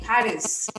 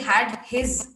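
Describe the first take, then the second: First: The h sounds are soft and barely heard. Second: The h sounds are strong and clearly heard. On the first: The speaker calls it right. "Just use that softly" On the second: The speaker calls it wrong. "don't say had his. Don't do that"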